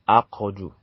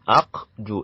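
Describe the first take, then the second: First: The middle consonant is released with a short vowel. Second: The middle consonant is closed with no vowel after. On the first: This is how it is said in Quran recitation. "in Quran recitation, it will be pronounced as Aqju" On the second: This is the ordinary pronunciation outside recitation. "It's supposed to be uh, Aqju like this"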